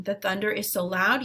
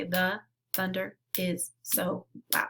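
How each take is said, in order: First: Said in the usual way. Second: Word by word. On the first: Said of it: "So if the, it says the". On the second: Shown as a demonstration. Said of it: "feel each word".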